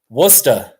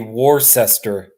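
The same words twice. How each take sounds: First: The name is pronounced the British way, not spelled out. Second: The name is pronounced just as it is spelled. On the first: The speaker calls it right. "It's it's pronounced Worcester. ... how you say it with your British accent" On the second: The speaker calls it wrong. "phonetically, it should be Worcester"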